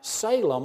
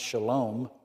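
First: The word begins with a plain s sound. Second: The word begins with a sh sound. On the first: The speaker calls it wrong. "or that's the way we read it here" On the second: The speaker calls it right. "but it's actually pronounced Shalom"

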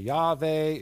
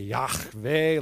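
First: The h sound is soft and plain. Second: The h sound is harsh, like clearing the throat. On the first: "you could say Yahweh" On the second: "If you want to sound like you're from the Middle East, you would say Yahweh, like you're clearing your throat"

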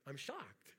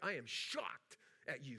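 First: It sounds joyfully surprised. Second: It sounds like a stern scolding parent.

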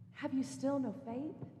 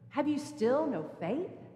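First: It sounds gentle and compassionate. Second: It sounds frustrated and reproachful.

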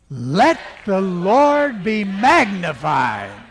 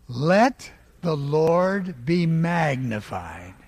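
First: It is said very loudly. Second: It is said calmly at normal volume.

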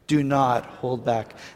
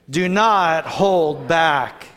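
First: It is read at a normal energy. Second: It is read with extra energy and emphasis.

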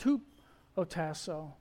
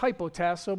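First: The first syllable sounds like 'hoo'. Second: The first syllable sounds like 'high'. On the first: The speaker calls it right. "It's pronounced hupotasso" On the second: The speaker calls it wrong. "You might say it's hypotasso, but it's not"

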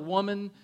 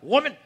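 First: It is said tenderly, with respect. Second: It is said harshly, like Clubber Lang.

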